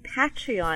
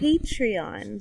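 First: The word does not start like patron. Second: The word starts like the word patron. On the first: "you keep saying Patreon" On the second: "like a patron"

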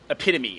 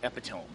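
First: It is said with four syllables, ending in 'me'. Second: It is said with three syllables, ending in 'tome'. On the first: This is the spoken word as normally heard. The speaker calls it right. "I knew the word epitome" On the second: This is a misreading of the written word. The speaker calls it wrong. "I thought there was a different word"

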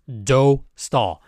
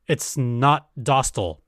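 First: The first vowel is a rounded 'oh' sound. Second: The first vowel is an open 'ah' sound. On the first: The speaker calls it right. "It's Dostal. it is do" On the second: The speaker calls it wrong. "it's not Dostal. It is not the vowel sound da"

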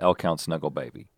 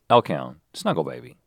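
First: The name is said without a pause. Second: There is a pause after L Count.

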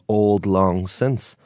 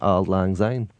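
First: It is said in a standard English accent. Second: It is said in a Scottish accent.

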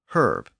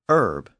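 First: The word starts with an audible H sound. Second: The word starts without an H sound. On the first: "not herb" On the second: "it disappeared throughout the Latin dialects around the 3rd century. So in Gallo-Roman, the ancestor of French, it was herb"

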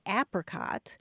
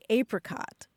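First: It uses the pronunciation common in the northern US. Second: It uses the pronunciation common in the southern US. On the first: "all across the northern part of the country, and including Colorado, people are more likely to say apricot" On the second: "farther south, people are more likely to say apricot"

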